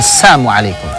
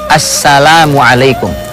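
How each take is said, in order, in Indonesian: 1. Suku kata 'la' dihilangkan dari kata itu. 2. Suku kata 'la' diucapkan dengan jelas. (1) "Assamu hilang, hilang lamnya" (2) "Ucapkan dengan benar"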